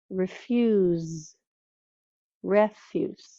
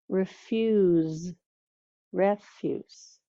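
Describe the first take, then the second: Both takes have the same delivery.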